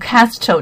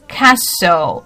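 First: An extra middle consonant sound is pronounced. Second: The silent middle consonant is dropped. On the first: The speaker calls it wrong. "不是念Castle" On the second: The speaker calls it right. "其实它是念Castle 啊"

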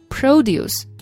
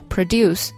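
First: The stress is on the first syllable. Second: The stress is on the second syllable. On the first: It is the noun meaning farm goods. "它的名词形式produce，重音跑到前面去了" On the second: It is the verb meaning to make. "这个词就是那个生产那个词嘛"

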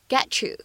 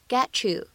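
First: The t and you blend into a ch sound. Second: The t and you blend into a ch sound.

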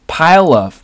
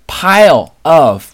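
First: The two words are linked together. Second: The two words are said separately.

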